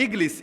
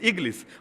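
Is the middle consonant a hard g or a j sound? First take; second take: hard g; hard g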